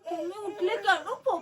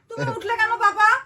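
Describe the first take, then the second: First: It is said in an exaggerated, theatrical tone. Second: It is said in a harsh, scolding tone. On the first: "একটু বেশি নাটক করছো" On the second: "বকে বলছো কেন?"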